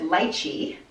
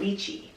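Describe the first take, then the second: First: The word is said the Hawaii way. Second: The word is said the California way. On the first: This is how people in Hawaii say it. "I grew up in Hawaii, and there we called it lychee" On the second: This is how people in California say it. "I think in California, people call it lychee"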